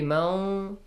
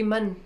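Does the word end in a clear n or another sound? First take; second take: another sound; clear n. First: The final n is changed into another sound. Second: The word ends with a clear n sound. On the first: The speaker calls it wrong. "It shouldn't be Mau" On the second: The speaker calls it right. "it should be Man"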